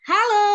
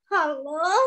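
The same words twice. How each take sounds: First: It is said in a happy way. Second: It is said in a sad way. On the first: "mengucapkan kata halo dengan bahagia" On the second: "Kalau sekarang ekspresinya sedih"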